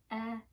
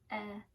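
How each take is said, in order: First: The vowel is a short eh sound. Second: The same.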